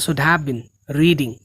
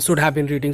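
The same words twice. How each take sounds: First: It has a short pause before the last word. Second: It is said fast, with no pause. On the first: The speaker calls it right. "थोड़ा pause कर लो" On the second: The speaker calls it wrong. "Bullet train की तरह नहीं बोलना"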